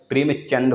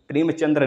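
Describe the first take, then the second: First: प्रेमचंद slowly, ending cleanly on द with no र; teacher says प्रेमचंद clearly, without the र; correct pronunciation. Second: प्रेमचंद्र with the extra र at the end, as people wrongly say it; wrong pronunciation. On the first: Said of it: "प्रेमचंद होता है". (सही उच्चारण: प्रेमचंद, धीरे और साफ़, बिना र के) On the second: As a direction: say प्रेमचंद्र ending in द्र, the mistaken way. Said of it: "प्रेमचंद्र नहीं होता है". (गलत उच्चारण: प्रेमचंद्र, अंत में द्र के साथ) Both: Shown as a demonstration.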